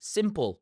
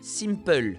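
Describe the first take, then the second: First: It is said with an English accent. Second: It is said with a French accent. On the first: "in English, we would say simple" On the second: "French people, we say simple"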